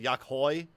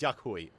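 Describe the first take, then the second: First: The name ends with an 'oy' sound. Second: The name ends with an 'oo-ee' sound. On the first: The speaker calls it wrong. "I think I've pronounced it Yakhoi" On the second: The speaker calls it right. "but it's Yakhui"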